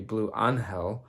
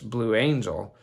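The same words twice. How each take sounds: First: The name is pronounced the Spanish way. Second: The name is pronounced the English way. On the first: "my textbook Spanish tells me that it would be Blue Angel" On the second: "or in English"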